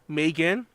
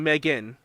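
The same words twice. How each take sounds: First: The first syllable rhymes with 'day'. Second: The first syllable rhymes with 'leg'. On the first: "I say Megan, like May" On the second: "the proper way to say it is Megan, like Meg"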